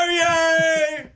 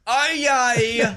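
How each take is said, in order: First: It is said in a British accent. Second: It is said in a New Zealand accent.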